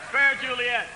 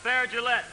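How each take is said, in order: First: "Juliet" said JOO-lee-et, with a clear J and three syllables; "Fair Juliet" said properly as JOO-lee-et; correct pronunciation. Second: "Gillette" said like the razor brand, zhuh-LET; mispronounced Juliet. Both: Acted. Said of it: "It's Juliet, you fool".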